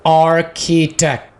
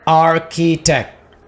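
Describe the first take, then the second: No difference in how they are said.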